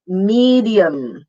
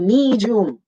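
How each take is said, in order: First: The middle consonant is a d plus y. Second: The middle consonant sounds like a j. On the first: The speaker calls it right. "long E and then D and Y, medium and a schwa" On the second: The speaker calls it wrong. "with a J and the long E"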